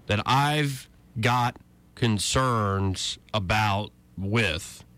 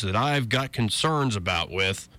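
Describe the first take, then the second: First: "concerns about with" spelled out slowly to highlight awkward wording; slow, pointed repetition. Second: Said in the usual way. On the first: Shown as a demonstration. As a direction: drag out "that I've got concerns about with", pausing between phrases. Quote repeated for its awkward wording.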